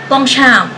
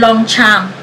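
First: The name is said in its original pronunciation. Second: The name is said in the local Filipino way. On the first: This is how the name is really pronounced. "sa totoong buhay, o yung totoo talaga" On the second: This is the habitual everyday pronunciation. "lagi kong pronunciation"

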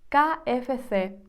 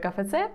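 First: The letters are named the Spanish way. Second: The letters are named the Ukrainian way. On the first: "як вимовляється букви іспанською" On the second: "як я його називаю"

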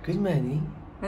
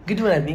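First: It is said softly and calmly. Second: It is said loudly and energetically.

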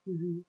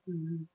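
The two takes are said the same way.

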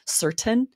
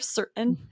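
First: The T in the middle is clearly released. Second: The T in the middle is a glottal stop. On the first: "they might pronounce that T" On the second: "we use more of a glottal stop there"

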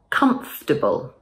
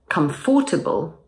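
First: The word is said with three syllables, dropping the middle 'or' sound. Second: The word is said with all four syllables, including the middle 'or' sound. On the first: The speaker calls it right. "say comfortable" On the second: The speaker calls it wrong. "So instead of comfortable"

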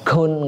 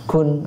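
First: The k has a strong, exaggerated burst of air. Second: The k has only a slight puff of air. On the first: The speaker calls it wrong. "gak usah terlalu berlebihan" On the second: The speaker calls it right. "ada apa udaranya sedikit"

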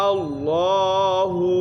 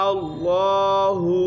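No difference in how they are said.

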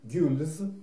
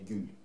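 First: The word ends with an s sound. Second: The word ends without an s sound. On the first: This is the English pronunciation. "ну это английское произношение" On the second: This is the French pronunciation. "по-французски, наверное, правильнее"

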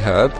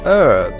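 First: The word begins with an h sound. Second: The word begins with a vowel, no h. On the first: The speaker calls it right. "Some people, mostly in America, don't say herb" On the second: The speaker calls it wrong. "They say herb, which doesn't make any sense"

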